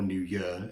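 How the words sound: It is said in a Welsh accent.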